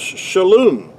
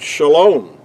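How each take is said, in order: First: The second vowel is a U sound. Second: The second vowel is an O sound. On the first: This is the ancient form. "in ancient Hebrew, that word was pronounced shalom" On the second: This is the modern form. "in modern Hebrew, the word shalom"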